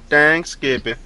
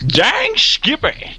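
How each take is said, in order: First: High, silly put-on voice; a high cartoonish Dang Skippy; goofy catchphrase. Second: Drawn-out, high southern Dang Skippy; slow hammed-up southern drawl; southern accent. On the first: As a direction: blurt it in a goofy voice. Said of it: "Where'd that come from?". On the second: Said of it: "give it more of a southern accent there".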